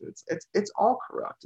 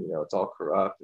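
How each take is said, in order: First: Incredulous echo. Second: Said in the usual way. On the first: Retold or imitated. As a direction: pitch jumps higher, ending on a rise. Echoing the quote incredulously.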